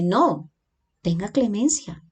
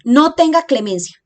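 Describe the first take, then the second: First: There is a pause right after 'no'. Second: The words run together with no pause. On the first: Do not do it; show mercy. "En el segundo, nos dice" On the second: Show no mercy at all. "En el primer ejemplo"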